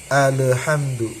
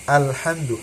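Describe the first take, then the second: First: The opening hamzah has an echoing bounce. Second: The opening hamzah is thin with no bounce. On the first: The speaker calls it wrong. "Atau pula terjadi qalqalah ya. ... itu jangan sampai terjadi" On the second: The speaker calls it right. "tipiskan olehmu hamzah di lapad alhamdu"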